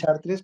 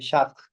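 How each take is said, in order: First: The name is said with Spanish pronunciation. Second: The name is said with French pronunciation. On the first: This is how people in Spain say it. "En España decimos" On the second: This is how the name is properly read. "pero se lee Chartres"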